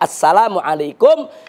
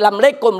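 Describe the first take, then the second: First: It is said with standard Arabic pronunciation. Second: It is said with a local Betawi pronunciation. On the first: The speaker calls it right. "Yang betul itu Assalamualaikum" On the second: The speaker calls it wrong. "apa yang dilakukan oleh masyarakat Betawi, ... tidak betul"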